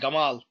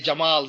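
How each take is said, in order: First: The name begins with a hard g sound. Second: The name begins with a j sound. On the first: This is how Egyptians say the name. "They say Gamal" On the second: This is the standard form of the name. "the Egyptian cannot say Jamal"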